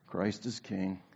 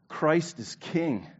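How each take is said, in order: First: It is said flatly, without emphasis. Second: It is said emphatically, like an exclamation.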